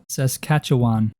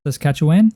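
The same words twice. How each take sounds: First: Saskatchewan said slowly and carefully, falling at the end; slow careful try. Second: Saskatchewan? with a rise, testing the sound; questioning try. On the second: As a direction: ask Saskatchewan? to check it. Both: Shown as a demonstration. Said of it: "How do you even say that?".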